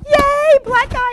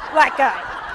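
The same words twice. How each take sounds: First: High, loud and delighted; excited cheer. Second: A hint of fear, wary and startled; alarmed. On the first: Retold or imitated. Colleague imitating the speaker's relieved cheer on the street. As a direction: cheer like help has finally arrived. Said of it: "'cause you were going". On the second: Colleague imitating her own wary reaction to the man. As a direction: say it like a mild warning. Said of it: "and I was going".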